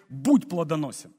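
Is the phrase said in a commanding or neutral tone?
commanding. It is said in a firm, commanding tone.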